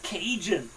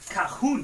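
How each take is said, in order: First: The middle consonant is a j sound. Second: The middle consonant is an h sound. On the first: The speaker calls it right. "it's Cajun" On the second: The speaker calls it wrong. "For me it was always Cahoon"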